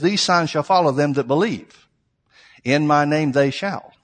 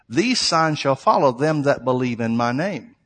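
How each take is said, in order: First: There is a break after 'believe'. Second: There is no break after 'believe'.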